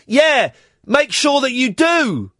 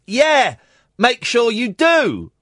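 First: Slow, superior put-down; snotty tone. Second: Drawn-out condescending warning; snotty tone. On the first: Woman on the swing scolding the dog owner, snide and slow. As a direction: talk down to him, slowly, as if scolding. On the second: Woman on the swing repeating her warning, smug and slow. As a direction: lean on it like a telling-off. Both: Retold or imitated. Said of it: "The tone I am putting in my voice is the tone that she had".

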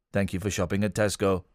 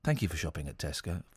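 First: Deep flat robotic drone. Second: Deep monotone robot, very soft; flat machine drone, low and quiet. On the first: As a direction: speak like a checkout machine. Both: Shown as a demonstration. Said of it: "My robot voice".

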